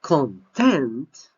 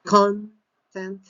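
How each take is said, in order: First: Content with loud, long TENT; second-syllable stress on CONTENT. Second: Content with high, loud CON; noun stress on CONTENT. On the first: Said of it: "second syllable, we have the stress". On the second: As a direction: punch the first syllable of Content, then split. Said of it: "stress is in the first syllable". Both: Shown as a demonstration.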